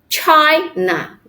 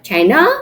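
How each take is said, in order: First: The stress is on the first syllable. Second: The stress is on the second syllable. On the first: The speaker calls it right. "We put the stress in the first syllables" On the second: The speaker calls it wrong. "not China"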